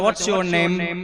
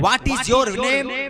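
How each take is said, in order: First: 'What is' is shortened into 'what's'. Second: 'What is' is said as two full words. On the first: It is dressed-up, more polished English. "इसी को खूबसूरत बनाकर बोलते हैं" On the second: It is plain, simple everyday English. "तोड़ फोड़ कर बोलते हैं ... बहुत सिंपल है"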